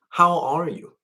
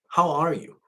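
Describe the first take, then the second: No difference in how they are said.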